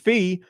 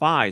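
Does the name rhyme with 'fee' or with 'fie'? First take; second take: fee; fie. First: The name is said with an 'ee' vowel. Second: The name is said with an 'eye' vowel. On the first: The speaker calls it wrong. "I originally thought Phi was pronounced Fee" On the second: The speaker calls it right. "it's Phi. So Phi is the correct pronunciation"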